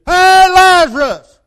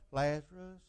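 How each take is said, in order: First: Slow, booming high shout of command. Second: Soft, weak murmur of the name "Lazarus"; timid quiet call. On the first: Retold or imitated. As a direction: call the dead man out with full force. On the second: Shown as a demonstration. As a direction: say "Lazarus" meekly, barely audible. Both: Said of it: "He didn't do it like, eh, people go".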